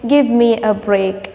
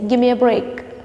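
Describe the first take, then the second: First: Give me is said fully as two words. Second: Give me is reduced to gimme. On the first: "Instead of saying" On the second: "you can say"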